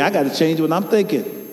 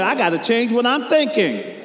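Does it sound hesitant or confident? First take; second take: hesitant; confident. First: It is said plainly, without much conviction. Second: It is said with firm, confident conviction.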